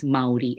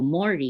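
First: "Maori" read as MAH-oh-ree, the way Filipinos read it. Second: "Mori" said MOH-ree, one long o; local pronunciation. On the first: Teacher showing the Filipino reading of "Maori". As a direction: say "Maori" with a clear a-o, spelled-out style. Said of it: "we say it as Maori". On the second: Teacher showing how locals really say "Mori". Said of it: "how they really pronounce it". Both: Shown as a demonstration.

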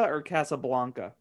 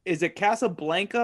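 First: Casablanca with "blahn" in the middle; pronunciation variant. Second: Casablanca with "blan" as in "bland"; pronunciation variant. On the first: Co-host offers the alternative pronunciation, pronunciation variant. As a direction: say Casablanca with an open "ah" in "blanc". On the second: Co-host checks the first of two pronunciations, pronunciation variant. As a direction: say Casablanca with the flat A of "bank" in "blanc". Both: Shown as a demonstration. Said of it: "Is it Casablanca or Casablanca?".

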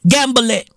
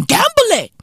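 First: Said in the usual way. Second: Gamble it yelped way up high; high urging. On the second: Acted. Comic urging viewers to take risks, high squeal.

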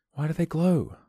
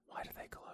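First: High bright take; higher take. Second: Whispered question; breathy whispered take. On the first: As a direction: question pitched up. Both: Shown as a demonstration.

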